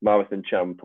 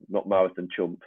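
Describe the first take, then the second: First: "Champ" said with a clear open a, as in cramp; Champ said right. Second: "Chump" said with a short u, as in jump; Chump said wrong. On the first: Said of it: "It's Champ". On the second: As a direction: say the vowel in "Chump" like "uh". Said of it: "It's definitely not". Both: Shown as a demonstration.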